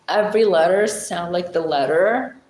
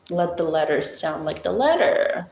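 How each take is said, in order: First: Careful, over-articulated British English; British accent. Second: Effortfully enunciated British English; British accent. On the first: Explaining how to sound British, British accent. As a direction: make every letter count, British style. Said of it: "when you try to sound British". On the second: Showing the effort British takes, British accent. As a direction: try extra hard at sounding British. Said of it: "so you try extra hard". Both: Shown as a demonstration.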